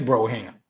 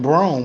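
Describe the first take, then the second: First: The name is said as two syllables. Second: The name is said as one syllable. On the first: This is a spelling-based reading of the name. "We wouldn't say Broham" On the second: This is how some regions say it. "in some regions we would- we would pronounce that last name Brome"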